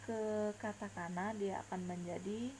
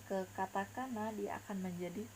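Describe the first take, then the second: The two takes are said the same way.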